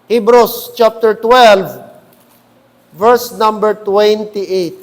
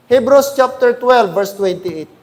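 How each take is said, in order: First: Slow, each word spaced out; slow, deliberate citation. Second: Said in the usual way. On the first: Shown as a demonstration. Pastor to congregation, slowly repeating the verse number. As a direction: spell out "Hebrews chapter twelve" slowly so all can find it. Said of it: "repeats verse slowly". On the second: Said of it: "announces verse".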